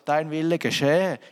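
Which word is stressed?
geschehe. The stress is on geschehe.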